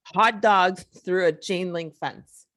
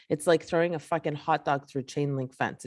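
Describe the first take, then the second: First: "Hot dogs" slow and punched, then "chain link fence" spelled out; deliberate, louder stress on "Hot dogs"; slow emphatic repeat. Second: Said in the usual way. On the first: Real, not acted. Repeats the comparison slowly for emphasis.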